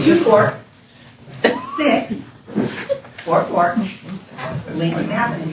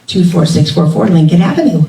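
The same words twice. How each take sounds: First: The address is said at a slower pace. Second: The address is said at a quick pace.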